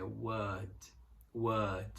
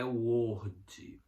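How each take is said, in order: First: "word" said with an open a vowel, like "wad"; word with an a sound. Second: "word" said with a round O like the software name; "word" mispronounced as "uord" on purpose; wrong pronunciation of word. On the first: Teacher models the right way to say "word". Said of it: "som de a". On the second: Teacher demonstrates the wrong way to say "word". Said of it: "Não é word". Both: Shown as a demonstration.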